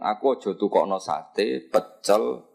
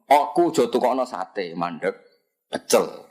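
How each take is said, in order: First: The words run on without a stop after sate. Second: There is a clear stop after sate. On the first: None of the listed foods should be bought. "Itu semuanya mamnu" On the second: Not satay, but buy pecel instead.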